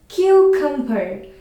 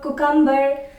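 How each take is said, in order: First: The stress is on the first syllable. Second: The stress is not on the first syllable. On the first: The speaker calls it right. "The right way is cucumber. So you need to stress on the first syllable" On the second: The speaker calls it wrong. "So it's not the right way"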